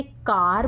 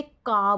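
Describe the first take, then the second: First: कार with the r sounded at the end; American car. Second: का with no r at the end; British car. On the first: Teacher gives the American कार, r sounded. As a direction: say कार with a full r. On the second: Teacher gives the British का, r dropped. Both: Shown as a demonstration. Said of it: "आर को वो ज़्यादा stress नहीं देते".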